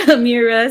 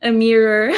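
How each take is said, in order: First: Said in the usual way. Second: "Amira" said as "Amirer"; "Amira" pronounced like "a mirror"; ER ending on name. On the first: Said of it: "end of my name". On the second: Shown as a demonstration. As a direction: finish "Amira" with a clear R sound. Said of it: "putting an E R at the end of my name".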